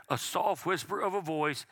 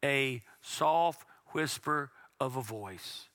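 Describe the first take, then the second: First: Said in the usual way. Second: Slow read-along. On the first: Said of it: "as we just read". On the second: Shown as a demonstration. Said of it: "let's read that together".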